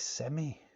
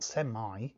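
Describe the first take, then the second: First: The word ends with a short 'ee' sound. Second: The word ends with a drawn-out 'eye' sound. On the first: The speaker calls it right. "It's semi" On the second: The speaker calls it wrong. "You don't overpronounce your eyes at the end of semi. It's not semi"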